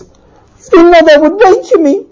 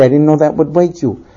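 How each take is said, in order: First: High, loud, drawn-out disbelief; incredulous outrage. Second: Low, remorseful wife; meek apology. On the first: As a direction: throw the words back, pitched high. Husband throws her words back. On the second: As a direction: offer it gently in a lowered voice. Wife's apology, husband echoes it. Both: Acted.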